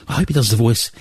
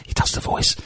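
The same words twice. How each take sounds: First: Said in the usual way. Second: Breathy hushed whisper, no voice at all. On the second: Shown as a demonstration. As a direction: drop to a secret whisper on the voice. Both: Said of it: "You can't say do The Voice".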